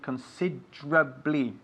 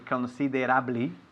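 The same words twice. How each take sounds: First: The middle vowel after 'consid' is dropped. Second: The middle vowel after 'consid' is sounded. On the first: "but we pronounce it considerably" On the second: "we write considerably"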